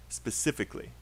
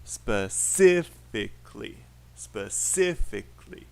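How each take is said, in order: First: Said in the usual way. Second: "Specifically" slowly split, the second syllable punched; exaggerated stress on the second syllable of "Specifically". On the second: Shown as a demonstration. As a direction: hit the CIF in "Specifically", syllables drawn apart. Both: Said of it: "second syllable".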